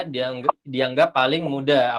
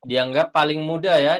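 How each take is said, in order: First: "dianggap, dianggap paling mudah" said slowly, with a pause after the first "dianggap"; slow emphatic repeat. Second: Said in the usual way. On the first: Shown as a demonstration. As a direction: stress "mudah" with a slow, falling finish.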